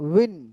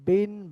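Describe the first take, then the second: First: It starts with a rounded w sound. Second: It starts with a clear b sound. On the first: The speaker calls it right. "সেখানে আপনার উচ্চারণ করতে হবে ওয়াও দুই জের উইন" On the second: The speaker calls it wrong. "বা স্পষ্ট উচ্চারণ হবে না"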